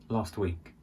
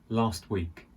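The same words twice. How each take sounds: Both takes have the same delivery.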